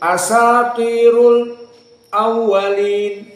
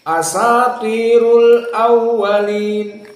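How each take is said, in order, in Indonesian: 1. Ada jeda singkat sebelum kata kedua. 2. Kedua kata itu langsung menyambung tanpa jeda. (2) "seperti jumhur langsung"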